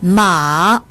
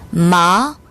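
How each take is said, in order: First: The pitch dips low then rises. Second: The pitch rises from mid to high. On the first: It means horse. "삼성으로 발음하면" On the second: It means numb. "이성"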